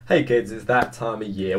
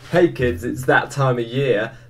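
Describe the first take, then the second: First: It is said flatly, without much energy. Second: It is said with lively, excited energy.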